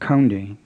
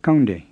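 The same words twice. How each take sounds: First: It starts with a breathy, aspirated K sound. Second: It starts with a plain K without breath. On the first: The speaker calls it wrong. "with an aspirated K like English" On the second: The speaker calls it right. "with a plain K"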